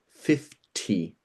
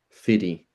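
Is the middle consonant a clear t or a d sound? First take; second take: clear t; d sound. First: The middle consonant is a clear t. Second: The middle consonant sounds like a soft d.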